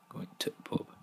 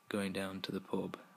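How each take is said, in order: First: The word 'the' is cut to a t-sound. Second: The word 'the' is said in full. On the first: "we would shorten it to t ... But that's wrong" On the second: "instead of saying"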